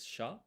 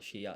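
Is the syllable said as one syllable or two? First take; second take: one; two. First: It is said as one merged syllable. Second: It is said as two separate syllables. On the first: The speaker calls it right. "it's sha" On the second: The speaker calls it wrong. "it's not shiya"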